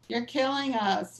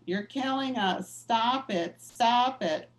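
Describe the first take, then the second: First: Mild mock yell, slow and drawn out; retold scream. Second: Mild mock yell building a bit louder at the end; retold scream. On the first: Activist on the pew yelling at the cardinal, mild mock yell. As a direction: lightly act out a protester yelling, a touch of New Jersey accent. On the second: Activist on the pew yelling at the cardinal, mild mock yell rising to the last words. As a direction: lightly replay the protester's yell, a hint of New Jersey. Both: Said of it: "starts screaming at Cardinal".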